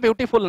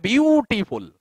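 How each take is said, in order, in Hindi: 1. यह शब्द सामान्य लंबाई में बोला जाता है। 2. यह शब्द खींचकर और लंबा करके बोला जाता है। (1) "ब्यूटीफुल एक्चुअल में ब्यूटीफुल नहीं है" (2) "वो खींच के बोला जाता है"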